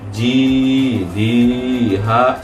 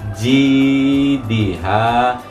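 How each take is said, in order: First: The syllable 'di' is held long. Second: The syllable 'di' is held short. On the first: The speaker calls it wrong. "di-nya jangan dibaca panjang. Jidiha, seperti itu. Itu salah atau keliru" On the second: The speaker calls it right. "yang diberi tanda hijau dibaca jidiha"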